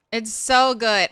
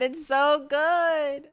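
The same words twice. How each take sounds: First: Said in the usual way. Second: Slow, high, drawn-out relish; savoring. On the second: Real, not acted. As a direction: linger on every word like a tasty bite. Savoring Cracker Barrel cornbread.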